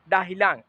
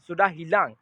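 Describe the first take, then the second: First: The first word is cut to one short syllable. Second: The first word is said with both syllables. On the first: This is casual everyday speech. "डाह उसने बोला बहुत शॉर्ट बोला" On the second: This is the complete form. "इसका पूरा फुल जो होता है"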